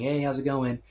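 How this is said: It sounds like a casual, routine greeting.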